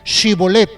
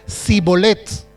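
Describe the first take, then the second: First: The word begins with a sh sound. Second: The word begins with an s sound. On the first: The speaker is a native of the place. The speaker calls it right. "ellos no podían decir shibolet" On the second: The speaker is an outsider. The speaker calls it wrong. "ellos decían sibolet"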